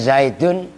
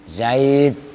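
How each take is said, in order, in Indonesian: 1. Kata itu berakhir dengan akhiran -un yang lengkap. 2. Kata itu berhenti begitu saja tanpa akhiran -un.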